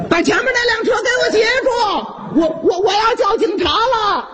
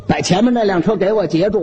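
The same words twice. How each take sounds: First: High, fast shout; frantic yell. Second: Said in the usual way. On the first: Acted. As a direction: bellow for help, rushing. Uncle yelling to stop the thief.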